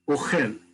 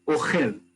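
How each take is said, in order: First: The stress is on the second syllable. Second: The same.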